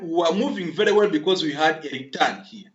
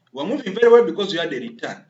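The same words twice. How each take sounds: First: Said in the usual way. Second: Repeated louder and faster, each word pushed; emphatic repeat. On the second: Shown as a demonstration. Coding teacher to class members, emphatic louder repeat. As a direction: hammer the point home a second time.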